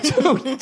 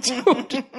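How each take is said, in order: First: Said in the usual way. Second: Dude said through a laugh. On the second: Retold or imitated. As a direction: let the laugh break into dude. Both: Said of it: "Doing that dude while laughing".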